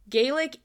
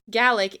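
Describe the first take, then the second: First: The word is pronounced the Irish way. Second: The word is pronounced the Scottish way. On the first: It names the Irish language. "Gaelic is Irish" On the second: It names the Scottish language. "Gaelic is the Scottish variant"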